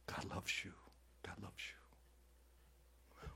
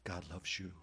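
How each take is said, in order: First: "God loves you" fading to a slow, far-off whisper; mocking the soft message people want, whispered away; mock soothing whisper. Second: Said in the usual way. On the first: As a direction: coo the empty comfort softer each time. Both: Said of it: "You just wanna hear".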